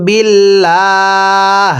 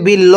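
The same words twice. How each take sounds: First: বিল্লাহ with a long drawn লাহ stopped at the end; correct waqf. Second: বিল্ল clipped short without লাহ; wrong form. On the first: Teacher shows the correct pause on বিল্লাহ. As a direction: stretch বিল্লাহ slowly and stop on it. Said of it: "ওয়াকফ করলে". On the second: Teacher quotes the wrong clipped reading. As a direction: cut বিল্ল off short, the mistake. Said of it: "তাহলে আর পড়াটা শুদ্ধ হবে না". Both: Shown as a demonstration.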